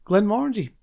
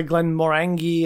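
First: Glenmorangie said glen-MOR-un-jee, rhyming with orangey; Glenmorangie, stressed on MOR, ending like "orangey"; official pronunciation. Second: Glenmorangie said glen-mor-ANG-ee, with a hard g; common mispronunciation. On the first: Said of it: "the actual way of pronouncing it". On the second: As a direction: say Glenmorangie to rhyme its ending with tangy. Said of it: "some people say Glenmorangie". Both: Shown as a demonstration.

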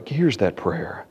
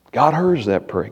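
First: "hears" stressed, softer and lower; quiet. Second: Said in the usual way. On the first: Shown as a demonstration. Pastor repeating the point to the congregation, hushed.

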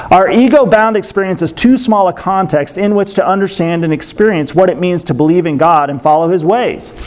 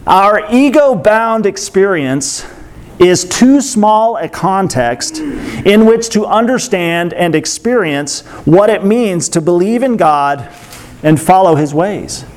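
First: Said in the usual way. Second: Drawn-out words with measured pauses; slow deliberate reading. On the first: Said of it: "I'm gonna read this twice". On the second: Real, not acted. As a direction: read the quote slowly, weighing each phrase. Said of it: "I might have to read slowly".

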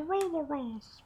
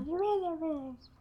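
First: Very high, thin, floating wisp voice; high eerie will-o'-wisp whisper. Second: Very high, slow, eerie wisp voice; Will-O-Wisp voice. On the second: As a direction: drift it out high and slow like a ghost light. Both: Shown as a demonstration. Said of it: "I only picked the Will-O-Wisp voice".

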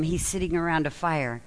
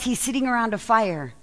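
First: Sitting leaned on, softer and lower; sitting stressed, quieter and lower. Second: Sitting leaned on, falling; stress on sitting. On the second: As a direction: hit the word sitting. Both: Shown as a demonstration.

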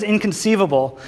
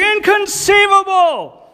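First: Italian guy's catchphrase. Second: Slow, very high shouted disbelief; hammed-up incredulous shout; shocked Italian guy. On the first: Retold or imitated. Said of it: "who always says". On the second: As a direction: stretch it out in a high squawk of shock. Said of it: "he just looks down, he's like".

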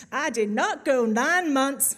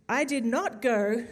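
First: Loud, drawn-out sassy Southern US accent; sassy American accent. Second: Said in the usual way. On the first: Shown as a demonstration. Preacher quoting a mother's billboard, sassy American accent. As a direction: put on a sassy American twang, slow and punchy. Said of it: "kind of the sassy American accent". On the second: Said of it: "you have to say it".

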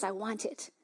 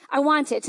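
First: Softer, hushed first take of I want it; hushed longing. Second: Said in the usual way. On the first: Retold or imitated. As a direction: drop the voice, almost to yourself.

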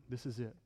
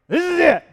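First: Soft and low, almost to himself; hushed Jesus line; quiet quote. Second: Much higher, much louder declaration; preacher's triumphant shout; shouted proclamation. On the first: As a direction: say it gently, under the breath. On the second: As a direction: cry it out to the whole room. Climax of Jesus quote. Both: Acted.

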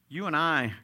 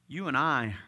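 Both takes have the same delivery.

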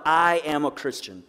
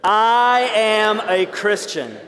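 First: Slow, deliberate declaration; said out loud. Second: Very slow, louder declaration; said together, stronger. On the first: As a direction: say it slowly, each word firm. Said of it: "we're gonna say this out loud". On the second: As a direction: proclaim it slowly and boldly. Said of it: "Let's say it together". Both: Shown as a demonstration.

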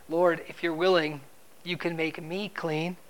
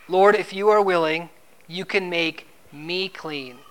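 First: Doubtful plea. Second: "me" weighted and slowed at the end; stress on me. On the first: Retold or imitated. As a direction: plead without daring to hope. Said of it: "comes to Jesus with doubt". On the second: Shown as a demonstration. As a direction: lean into "me" in "you can make me clean". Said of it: "Me is the emphasis".

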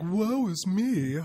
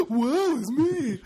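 First: Drawn-out, high mock lament; dramatic sigh. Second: Very high, slow mock lament; dramatic sigh. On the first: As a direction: wail it out slowly like a tragic martyr. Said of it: "Not like". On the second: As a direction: overdo the woeful moan, slowly. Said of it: "Sam sounds more like this".

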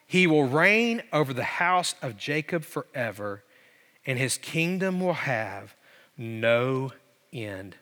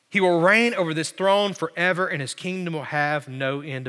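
First: Slow reading, sinking low and soft; solemn proclamation. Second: Said in the usual way. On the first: Retold or imitated. Preacher quotes the angel on Jesus' reign, solemn proclamation. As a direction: let it fall away, pausing before the last words.

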